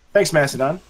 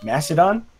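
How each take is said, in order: First: Said in the usual way. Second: Mastodon? said slowly, unsure, with a questioning rise; unsure of the name. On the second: Real, not acted. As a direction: try out Mastodon? as an unsure guess. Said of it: "Thanks, Mas-, uh".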